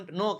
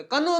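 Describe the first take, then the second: First: "know" said with the k silent, as "no". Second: "કનો" with a sounded k before the n; k wrongly sounded. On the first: Teacher shows learners the right word, silent k. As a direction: say "know" starting straight on the n. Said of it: "કે silent હે". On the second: Teacher warns learners off the misreading, k sounded. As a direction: say "કનો" as kuh-no, higher pitched. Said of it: "કનો નો વાંચતા. કે silent હે". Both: Shown as a demonstration.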